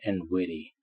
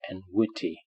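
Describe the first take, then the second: First: The middle consonant sounds like a soft d. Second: The middle consonant is a clear t. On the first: "In American English, it sounds more like d" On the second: "in received pronunciation, which is British, it is pronounced t"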